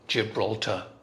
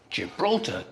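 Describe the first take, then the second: First: Every syllable gets the same stress. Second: One syllable is stressed more than the others. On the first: "every syllable is stressed the same" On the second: "In English, it's Gibraltar, da da da"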